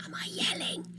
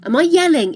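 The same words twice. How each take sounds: First: Hushed breathy whisper. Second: Louder, raised-voice question; yelling. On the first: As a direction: drop to a whisper. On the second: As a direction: push it out loud. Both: Shown as a demonstration.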